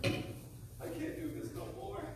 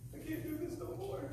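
First: Despairing whisper. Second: Soft despair. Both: Acted. Repeated despairing line.

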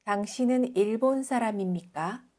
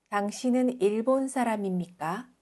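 The two takes are said the same way.

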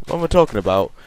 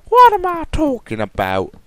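First: Said in the usual way. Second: Much higher and louder, silly squeak; squeaky mock self-question. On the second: Vlogger mocking his own line in a squeak. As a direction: squeak the question back at yourself.

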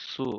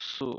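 First: Said in the usual way. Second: সু pronounced as a light tsu, drawn out. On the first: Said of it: "এটার উচ্চারণ হবে". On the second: Shown as a demonstration. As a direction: say সু with a faint t sound leading in. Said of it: "টি এর একটা আওয়াজ থাকবে".

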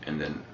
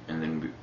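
Both takes have the same delivery.

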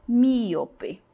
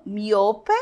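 First: Míope stressed on MÍ; Portuguese pronunciation. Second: Miope stressed on O; Spanish pronunciation. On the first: Teacher contrasts the two languages, míope stressed on the first syllable. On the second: Teacher contrasts the two languages, miope with stressed O. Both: Shown as a demonstration. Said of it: "a sílaba tônica está onde?".

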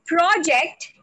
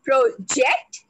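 First: "project" with PRO stressed; stress on first syllable. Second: "project" with JECT stressed; stress on last syllable. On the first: Trainer shows learners the noun, "project" stressed on PRO. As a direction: hit the PRO of "project", let ject drop back. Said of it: "put it on the first syllable". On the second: Trainer shows learners the verb, "project" stressed on JECT. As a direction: lean on the JECT of "project", after a light pro. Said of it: "stress on the last syllable". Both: Shown as a demonstration.

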